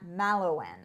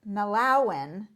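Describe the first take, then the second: First: The stress does not fall on the second syllable. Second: The stress falls on the second syllable. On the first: The speaker calls it wrong. "not Malawan" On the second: The speaker calls it right. "accent on the second syllable"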